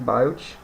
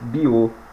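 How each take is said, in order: First: The name is said without French pronunciation. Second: The name is said with French pronunciation. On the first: The speaker calls it wrong. "a pronúncia errada que eu falei anteriormente" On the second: The speaker calls it right. "é francês, então se pronuncia Biot"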